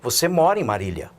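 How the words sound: It is said as a statement, falling.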